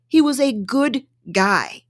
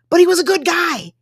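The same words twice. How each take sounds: First: Slow, stress on He; slow emphatic. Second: Higher, punchy emphasis on he; emphatic. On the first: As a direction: lean on He, slowly. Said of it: "repeated slower". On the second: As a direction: stress the word he, a bit higher. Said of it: "first take, higher". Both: Real, not acted.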